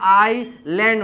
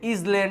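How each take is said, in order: First: The word is said with no s sound. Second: The word is said with an s sound. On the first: The speaker calls it right. "આને આઈ લેન્ડ વચાય છે" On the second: The speaker calls it wrong. "ઇઝ લેન્ડ નહીં"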